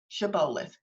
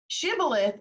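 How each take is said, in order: First: The O vowel is long. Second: The O vowel is short. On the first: This is how the speaker's group says it. "we just are long owing the O" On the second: This is the original pronunciation. "is the actual pronunciation"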